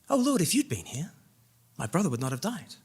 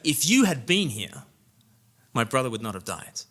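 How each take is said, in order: First: It sounds full of faith and trust. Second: It sounds accusing and full of complaint.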